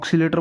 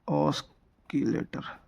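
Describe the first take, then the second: First: The word begins with an 'oks' sound. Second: The word begins with an 'osk' sound. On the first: It is the habitual everyday way of saying it. "ये ऑक्सीलेटर बोलते हैं ऐसे" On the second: It follows the written spelling. "Pronunciation हिसाब से कर रहा हूँ, ये जो लिखा हुआ है ना उस हिसाब से"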